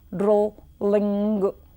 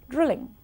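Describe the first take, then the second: First: The l sound is held and doubled. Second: The l sound is short and single. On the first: The speaker calls it wrong. "Doubling of consonant sounds is another problem" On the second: The speaker calls it right. "instead of"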